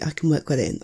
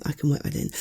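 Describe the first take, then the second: First: Said in the usual way. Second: Muttered under the breath, unvoiced; whispered to self. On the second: Real, not acted. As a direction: say it again quietly to yourself.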